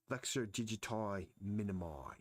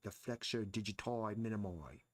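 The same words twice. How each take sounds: First: Said in the usual way. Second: A bad Australian accent, digiti turned into "dutoi"; mock Australian accent with a rise at the end; terrible Australian accent. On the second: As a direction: imitate an Australian classmate saying "The flexor digiti minimi", badly. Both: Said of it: "That was a terrible accent".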